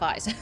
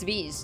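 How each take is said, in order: First: The vowel does not sound like peace. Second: The vowel sounds like the one in peace. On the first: The speaker calls it wrong. "I've been saying that wrong" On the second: The speaker calls it right. "rhymes with peace"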